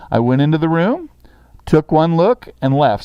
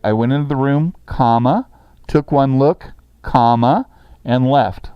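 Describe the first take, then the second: First: Said in the usual way. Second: Says "comma" aloud at each pause; reading with spoken commas. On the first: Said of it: "So you'd write". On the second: Shown as a demonstration. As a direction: dictate it, voicing every "comma" as a word. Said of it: "And I'm saying the word comma".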